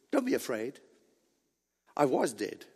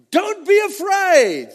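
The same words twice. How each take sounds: First: Softer, low-pitched comforting words; gentle reassurance. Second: High, loud, drawn-out quote; commanding proclamation. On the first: Preacher voices Christ comforting the beloved John, gentle reassurance. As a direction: reassure softly, voice well down. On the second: Preacher voices Christ addressing John, commanding proclamation. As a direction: declare it slowly and forcefully. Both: Acted.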